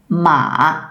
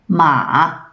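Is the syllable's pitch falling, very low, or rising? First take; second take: low; low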